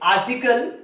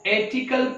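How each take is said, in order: First: The first vowel is an open 'ah' sound. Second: The first vowel sounds like the letter name A. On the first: The speaker calls it right. "Will it be right to प्रोनाउंसिएट आर्टिकल into एथिकल?" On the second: The speaker calls it wrong. "इसको एथिकल पढ़ूं क्या?"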